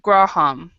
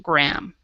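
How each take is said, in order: First: The middle H sound is pronounced. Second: The middle H sound is silent. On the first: The speaker calls it wrong. "you would pronounce the H" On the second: The speaker calls it right. "it is not pronounced. So Graham"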